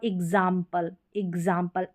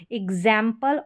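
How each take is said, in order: First: एग्जाम्पल with an open "aa" in the middle; "aa" variant. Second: एग्जाम्पल with a wide "ae" in the middle; "ae" variant. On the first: Teacher asking students to watch, "aa" in एग्जाम्पल. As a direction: say एग्जाम्पल as "ig-zaam-pal". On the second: Teacher asking students to watch, "ae" in एग्जाम्पल. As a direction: say एग्जाम्पल as "ig-zaem-pal". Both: Shown as a demonstration. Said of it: "pronounce देखें".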